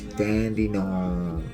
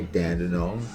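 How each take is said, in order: First: The last syllable sounds like 'nang'. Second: The last syllable sounds like 'nong'. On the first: The speaker calls it right. "It's Dandenong. Okay, so nang nang" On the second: The speaker calls it wrong. "don't say Dandenong"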